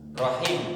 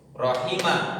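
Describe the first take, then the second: First: The word ends on a consonant, vowel short. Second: The word ends with a short final vowel.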